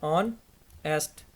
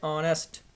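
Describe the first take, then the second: First: honest very slowly, long gap after ऑन; honest in two widely spaced syllables. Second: Said in the usual way. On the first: Shown as a demonstration. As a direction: pull honest apart into ऑन and एस्ट. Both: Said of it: "देखें".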